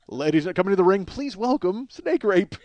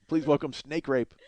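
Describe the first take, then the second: First: Ring announcer. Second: Slow, unassuming intro of a wrestler; flat announcement. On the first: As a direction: stretch every word like a ring announcer. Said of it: "That doesn't happen in wrestling". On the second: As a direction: announce it plainly and slowly. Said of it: "Nobody says, "Please welcome". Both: Shown as a demonstration.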